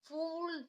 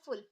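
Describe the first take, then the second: First: The vowel is long and drawn out. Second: The vowel is short and soft. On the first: The speaker calls it wrong. "फूल ऐसा तो नहीं पढ़ सकते ना" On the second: The speaker calls it right. "धीमी आवाज में पढ़ना है क्योंकि ये छोटी मात्रा है"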